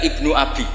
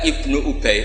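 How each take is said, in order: First: The second word is pronounced Abi. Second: The second word is pronounced Ubay. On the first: The speaker calls it wrong. "dibaca Ibnu Abi" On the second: The speaker calls it right. "Ubay bin Ka'ab"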